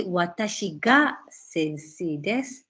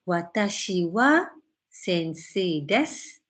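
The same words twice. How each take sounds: First: "ga" said with a rise, emphasizing the subject; stress on ga. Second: Said in the usual way. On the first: Shown as a demonstration. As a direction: lean on "ga" to stress who. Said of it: "emphasize on I, because after I you put ga". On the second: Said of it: "If you say, "Watashi ga sensei desu".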